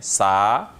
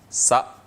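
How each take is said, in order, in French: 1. La voyelle est allongée, longue. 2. La voyelle se prononce courte.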